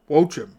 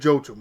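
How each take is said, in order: First: The name starts with a W sound. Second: The name starts with a J sound. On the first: The speaker calls it right. "apparently it's Wochim, or something close to that" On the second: The speaker calls it wrong. "I've been saying Joachim"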